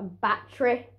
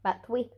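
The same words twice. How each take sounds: First: Battery said properly as "bat-tree"; proper pronunciation. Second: Battery deliberately said as "bat-twee"; jokey mispronunciation. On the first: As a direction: give battery its standard "bat-tree" sound. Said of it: "I know it's pr-, pronounced". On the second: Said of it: "saying that for the laughs". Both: Shown as a demonstration.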